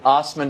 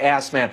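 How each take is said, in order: First: The name begins with an 'oz' sound. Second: The name begins with an 'ass' sound. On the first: The speaker calls it right. "that's the way you pronounce it" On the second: The speaker calls it wrong. "some crude people might say Assman"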